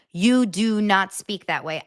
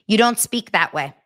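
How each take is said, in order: First: Slow, spaced-out stress on "do not"; emphatic DO NOT. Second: Said in the usual way. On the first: Real, not acted. Insisting to viewers nobody speaks so, slow stress on "do not". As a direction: separate and weigh each word of "do not".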